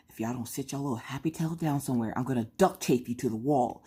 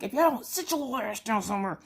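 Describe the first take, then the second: First: Gangster voice. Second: High, tough mom threat; gangster voice. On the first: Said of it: "I put it on mute". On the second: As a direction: lay down the law to the kids. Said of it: "I had to pull out the gangster voice". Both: Retold or imitated.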